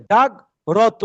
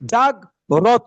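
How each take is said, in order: First: The r sound is split off from the cluster. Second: The r sound is split off from the cluster.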